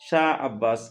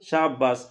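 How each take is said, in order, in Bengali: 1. দুটো শব্দ আলাদা করে, স্পষ্টভাবে বলা হয়। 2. দুটো শব্দ দ্রুত মিশে গিয়ে একটি হয়ে যায়।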